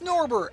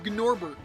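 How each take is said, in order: First: The name begins with a plain N sound. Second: The name begins with a sounded G before N. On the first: The speaker calls it right. "It is Norbert" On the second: The speaker calls it wrong. "too much emph- emphasis on trying to pronounce the gn"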